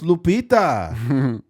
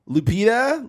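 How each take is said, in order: First: The name is pronounced in a Spanish-like way. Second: The name is pronounced in an English-like way. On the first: The name's owner is correcting the reader. The speaker calls it right. "it's Lupita" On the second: Someone unfamiliar with the name is reading it. The speaker calls it wrong.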